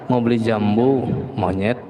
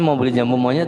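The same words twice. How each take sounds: First: There is a pause before the last word. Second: The phrase runs on without any pause. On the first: The listener is being called a monkey. The speaker calls it wrong. "Tapi naruh komanya salah" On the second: The speaker wants to buy cashew fruit. The speaker calls it right.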